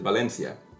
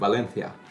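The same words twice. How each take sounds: First: The c is said as an s sound. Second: The c is said as a th sound. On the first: This is how the speaker's own Spanish says it. "me saying Valencia in Spanish is" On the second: This is how people in Spain say it. "They would say it like"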